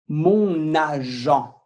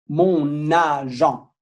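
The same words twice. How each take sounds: The two takes are said the same way.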